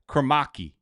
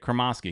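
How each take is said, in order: First: The middle S sound is nearly gone. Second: The middle S sound is clearly pronounced. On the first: The speaker calls it right. "it's more like Kromaki" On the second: The speaker calls it wrong. "I am currently saying it wrong. I'm saying it the way the announcers say it"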